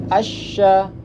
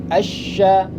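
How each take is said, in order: The two takes are said the same way.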